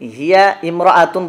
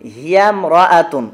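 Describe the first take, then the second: First: The two words stay apart, keeping the initial vowel. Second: The two words run together, dropping the initial vowel. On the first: The speaker calls it wrong. "হিয়া ইমরাআতুন বলার প্রয়োজন নেই" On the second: The speaker calls it right. "এই আলিফটা তখন আর পড়ায় আসবে না"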